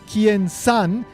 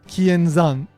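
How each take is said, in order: First: The last syllable begins with an S sound. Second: The last syllable begins with a Z sound. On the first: The speaker calls it wrong. "pronouncing the Z sound in Zan as San, like an S sound" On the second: The speaker calls it right. "instead of Kienzan"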